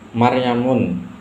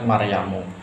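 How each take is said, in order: First: The name ends with an -un sound. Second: The name ends with an -u sound. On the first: The speaker calls it wrong. "ini salah" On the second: The speaker calls it right. "yang betul adalah Maryamu"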